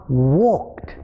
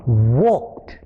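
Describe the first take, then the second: First: The ending is a t sound, one syllable. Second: The same.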